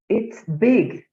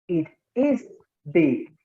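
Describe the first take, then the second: First: The pronoun and verb are joined in one syllable. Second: The pronoun and verb are said as separate words. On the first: "pronunciarlo como si estuviera contraído" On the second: "como si fuera eh, no contraída la forma"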